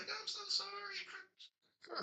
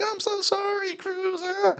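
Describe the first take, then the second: First: Very high, soft, barely voiced mock-mom; the mom apologising again, thin and breathless; meek mom. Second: Very high, soft mock-meek mother voice; a timid mom apologising to her brat, pitched way up and soft. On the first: Repeating the mom line.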